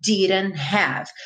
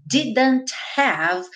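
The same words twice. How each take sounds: First: DIDN'T HAVE as diran-have; American reduced form. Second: DIDN'T HAVE with the middle D and final T sounded; slow, careful "didn't have"; full D and T. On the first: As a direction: flap the D and drop the T in "didn't have". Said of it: "aqui virou". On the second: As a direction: spell out every consonant in "didn't have". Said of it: "aqui virou didn't have". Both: Shown as a demonstration.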